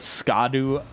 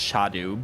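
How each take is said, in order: First: The word begins with an sk sound. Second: The word begins with an sh sound. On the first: The speaker calls it wrong. "I see a lot of people pronouncing the D L C area as like the the" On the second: The speaker calls it right. "I guess technically it's pronounced Shadu"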